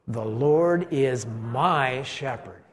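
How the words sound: The word my is strongly emphasized.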